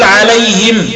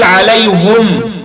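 First: عليهم said as alayhim, kasra on the ha, mim silent; pausal reading. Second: عليهم said as alayhum, damma on the ha, mim silent, slow; Hamza pausal reading. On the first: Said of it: "فإذا وقفت له تقول". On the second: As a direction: slowly stop on عليهم as alayhum. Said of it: "يقول". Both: Shown as a demonstration.

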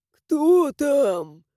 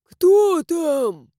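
First: Put-on thin, creaky old voice; creaky old man. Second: Put-on louder, creaky old voice; creaky old man. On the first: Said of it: "тихий скрипучий голос какого-то старика". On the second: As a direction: repeat it like a stubborn doorman. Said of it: "произнёс тот же голос". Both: A narrator's reading.

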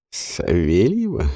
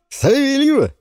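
First: Low, slow sceptical question; doubtful repeat. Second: High, loud triumphant naming; excited announcement. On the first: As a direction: weigh the name with doubt. Ворон переспрашивает. (недоверчивый переспрос) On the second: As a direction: present her like a prize. Жуан объявляет имя. (торжествующий возглас) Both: Acted.

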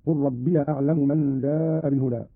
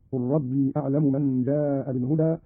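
First: Short -ya on "ربي", joined to the next word; fatha on the ya. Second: Said in the usual way. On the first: Shown as a demonstration. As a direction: say "ربي" as rabbiya. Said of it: "بفتح الياء وصلا هكذا". (فتح ياء "ربي" وصلًا)

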